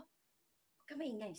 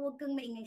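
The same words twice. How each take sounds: First: Slow, much softer, lower hush; slow hushed shh to keep someone quiet; hushed warning. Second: Said in the usual way. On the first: Retold or imitated. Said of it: "sabi ko". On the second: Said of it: "Sabi ko".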